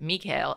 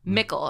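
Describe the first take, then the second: First: The name is said with the German pronunciation. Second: The name is said to rhyme with nickel. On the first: This is how German speakers say it. The speaker calls it right. "everyone in German pronounce it Mikhail" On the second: This is how the dub says it. The speaker calls it wrong. "They pronounce it like nickel"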